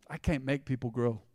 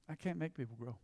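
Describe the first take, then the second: First: Said in the usual way. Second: Hushed repeat for emphasis; much softer repeat. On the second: Shown as a demonstration. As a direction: drop way down and say it softly.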